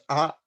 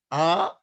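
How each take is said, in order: First: Short A sound; one quick beat of "are", like ah; short vowel. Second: Long A, held as aah; lengthened "A", a sustained aah; long vowel. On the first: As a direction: say "are" as a brief, clipped ah. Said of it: "that is short". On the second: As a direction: hold "A" as an open ah for two beats. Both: Shown as a demonstration.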